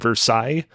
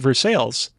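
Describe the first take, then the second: First: It is said with a French-style pronunciation. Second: It is said with an anglicized, local pronunciation. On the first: It names the place in France. "I was just in Versailles in uh, France" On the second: It names the town in Kentucky. "Kind of a weird way that you pronounce it"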